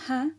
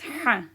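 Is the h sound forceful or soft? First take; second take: soft; forceful. First: The h sound is soft and light. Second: The h sound is forceful and strong. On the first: It sounds like a different letter. The speaker calls it wrong. "It's not ha, because then you'll confuse it with another letter" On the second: It is the intended letter. The speaker calls it right. "It's like a forceful H sound"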